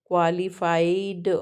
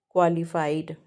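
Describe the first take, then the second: First: qualified stretched out syllable by syllable; syllable demonstration. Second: Said in the usual way. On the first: Shown as a demonstration. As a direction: draw out each vowel of qualified for counting. (Qualified को खींचकर, हर स्वर अलग सुनाते हुए) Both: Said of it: "ऐसे count कर सकते हो".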